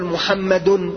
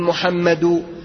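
First: The word ends with an added n sound. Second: The word ends without an added n sound. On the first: The name is treated as fully declinable. "لا نقول محمد" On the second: The name is treated as not fully declinable. "فلا ننونه، ... نقول محمد"

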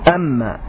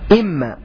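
First: The first vowel is an 'a' sound. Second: The first vowel is an 'i' sound. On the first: This is the form used by a few tribes. "لغة عن تميم وأسد وقيس بفتح همزتها" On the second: This is the form used by most Arabs. "لغة أكثر العرب فيها هو كسر همزتها"

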